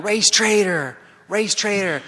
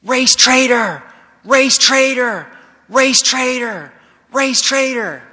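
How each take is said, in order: First: High but half-hearted imitation of a yelled chant; retold mob chant, raised in pitch without full volume; mock yelling. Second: High, loud, slow mob chant; yelling, imitated. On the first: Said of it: "So they're yelling". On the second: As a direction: hurl it out as a repeated crowd taunt. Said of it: "They start yelling".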